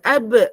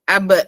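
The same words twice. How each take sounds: First: The voice sounds light and floating higher. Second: The voice sounds hard and held low. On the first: The speaker calls it right. "semuanya ke atas" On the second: The speaker calls it wrong. "bukan ab"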